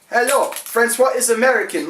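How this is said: It is said in an American accent.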